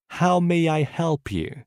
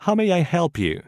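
First: How may I help you? said slowly, each word clear; slow it down for learners to repeat; slow repetition. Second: Said in the usual way. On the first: Shown as a demonstration. Teacher slowly modelling the phrase for students to repeat. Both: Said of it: "Écoutez et répétez après moi".

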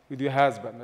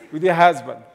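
First: Said in the usual way. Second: "your" hit louder, falling tune, pointedly disowning him; sharp emphasis on "your" in "With your husband"; stress on your. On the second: Shown as a demonstration. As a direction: lean on "your" to show he is your husband, not my father. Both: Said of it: "I did not call him my father".

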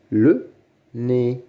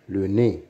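First: "Le nez" with a pause after Le; syllable by syllable. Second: Said in the usual way. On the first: Shown as a demonstration. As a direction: sound out "Le nez" as two separate beats. (« Le nez » en deux temps bien détachés) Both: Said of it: "Lis les mots".

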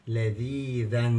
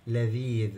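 First: لذيذا slowly, ending in a sounded "dhan"; tanween with fatha. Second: Said in the usual way. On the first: Shown as a demonstration. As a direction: close لذيذا on an audible "an", long ee before it. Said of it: "تنوين بالفتح بيحتاج إيه؟". (لذيذا ببطء بتنوين الفتح، نون مسموعة في الآخر) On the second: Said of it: "كلمة لذيذ".

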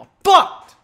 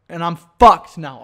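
First: Much higher, mock squeal on fucked; squeaky repeat. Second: Said in the usual way. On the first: Real, not acted. Host mocking his own lost train of thought, high squeal.

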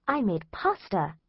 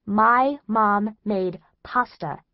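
First: Slow, mild imitation of mom; a light touch of a cheerful mother; mom proudly announcing. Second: "My" punched louder, slowed right down, "My mom made pasta" drawn out; incredulous stress on my. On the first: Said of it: "she says". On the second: Acted. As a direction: disbelief hammered into "My". Incredulous repeat of mom's words.

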